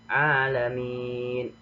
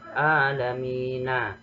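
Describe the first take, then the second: First: The word ends on a silent n consonant. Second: The word ends with an added final a vowel. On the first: The speaker calls it right. "mematikan huruf yang akhir" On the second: The speaker calls it wrong. "tidak boleh dibaca alamina"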